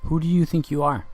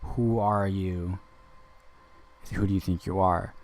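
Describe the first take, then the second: First: Pointed high challenge; confrontational challenge. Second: Quiet power. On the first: Challenging the woman who answered, pointed and high. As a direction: throw it at her as a challenge. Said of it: "what did she hear when I said". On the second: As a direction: say it softly, like you hold the power. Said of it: "I have more power than you". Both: Retold or imitated.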